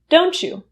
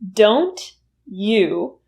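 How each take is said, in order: First: The t and y merge into a ch sound. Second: The t and y are said as separate sounds.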